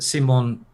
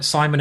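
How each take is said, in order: First: The name is said the French way. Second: The name is said the English way. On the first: This is how it is said in France and Italy. "Simon in, in France and Italy is also okay" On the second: This is how it is said in England. "Simon in England"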